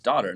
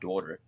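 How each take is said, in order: First: The word has a standard, non-New York vowel. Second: The word has a New York accent vowel. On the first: The speaker calls it right. "It's daughter" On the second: The speaker calls it wrong. "not daughter. Is that your New York accent coming out?"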